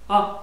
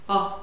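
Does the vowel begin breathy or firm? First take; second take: firm; firm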